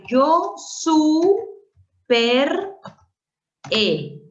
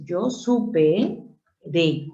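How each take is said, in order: First: Super E in separate, rising, drawn-out chunks; wrong syllable split. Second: Supe de, the R moved off supe onto the next vowel; corrected syllable split. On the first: Teacher showing a split one would never make, chunk by chunk. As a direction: break super away from E with a gap. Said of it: "Jamás haría eso". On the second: Teacher showing how it really divides, slow and separated. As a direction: say supe de slowly, supe ending on its vowel. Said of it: "De la misma forma". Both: Shown as a demonstration.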